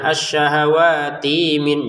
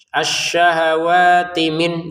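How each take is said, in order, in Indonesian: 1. Bunyi ti dipanjangkan sebelum min. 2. Bunyi ti pendek dan langsung menyambung ke min. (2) "ti di sini kemi langsung saja ya"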